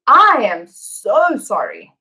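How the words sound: The word I carries the main stress. It is the speaker personally who is sorry. "Who's sorry? Him? Her? Us? I am. Me"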